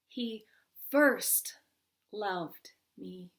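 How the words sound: The stress falls on the word first.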